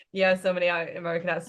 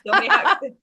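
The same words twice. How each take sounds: First: Said in the usual way. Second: Higher and louder, laughing through the words. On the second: Real, not acted. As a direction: burst out laughing as you say it. Laughs about accents.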